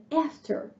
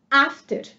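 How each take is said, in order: First: After with a flat a, as in cat; American a. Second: After with an open ah, as in father; British a. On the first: Teacher contrasts the American after for students. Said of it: "para os americanos". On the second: Teacher contrasts the British after for students. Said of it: "pros britânicos". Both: Shown as a demonstration.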